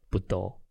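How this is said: It is said with a Minnan pronunciation.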